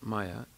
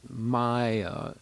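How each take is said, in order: First: Both vowels are short and clipped. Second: Both vowels are drawn out long. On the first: It means something other than illusion. "when it's just regular short vowel" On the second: It means illusion. "It has two long vowels"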